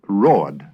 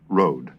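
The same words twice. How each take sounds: First: Road with a short clipped o, like rud; New England pronunciation. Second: Said in the usual way. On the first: Shown as a demonstration. Narrator demonstrates the colonial spelling, road with short vowel. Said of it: "phonetic spellings of New England pronunciations". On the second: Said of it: "for road".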